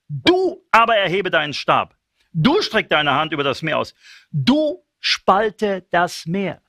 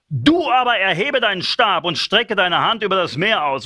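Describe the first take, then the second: First: Each "Du" punched at the start of the line; stress on Du. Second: Said in the usual way. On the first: Shown as a demonstration. Preacher rereads God's command, stressing each "Du". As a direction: hammer every "Du". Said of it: "Du tust das". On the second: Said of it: "scripture read first".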